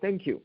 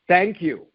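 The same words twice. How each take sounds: First: It is said quietly, in a normal way. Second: It is said a little louder.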